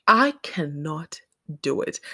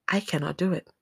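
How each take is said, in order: First: Slow, deliberate stress on "I cannot"; emphatic refusal. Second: Said in the usual way. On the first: Real, not acted. Telling listeners she can't kill chickens, emphatic.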